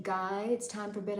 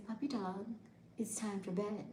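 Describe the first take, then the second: First: Said in the usual way. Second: Softer, hushed bedtime line; soft bedtime whisper. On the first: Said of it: "So instead of saying". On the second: Shown as a demonstration. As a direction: whisper it to a pet. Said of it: "I'll say".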